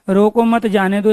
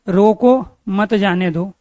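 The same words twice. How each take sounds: First: There is a pause right after 'mat'. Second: There is a pause right after 'roko'.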